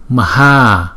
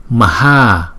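The two takes are said the same way.

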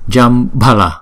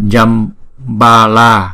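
First: The two a vowels are kept short. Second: The two a vowels are drawn out long. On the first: The speaker calls it right. "Chúng ta đọc là Jambala" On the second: The speaker calls it wrong. "Chúng ta không đọc là Jambala, bởi vì hai chữ A này đâu có dấu gạch ngang trên đầu đâu"

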